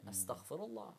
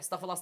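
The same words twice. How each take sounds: First: It is said slowly and earnestly, with feeling. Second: It is said quickly and mechanically, without feeling. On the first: The speaker truly means the words. The speaker calls it right. "Say it to Allah like you mean it" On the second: The words are recited by habit without meaning. The speaker calls it wrong.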